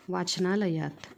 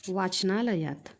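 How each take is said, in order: The two takes are said the same way.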